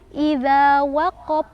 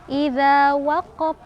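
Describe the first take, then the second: The two takes are said the same way.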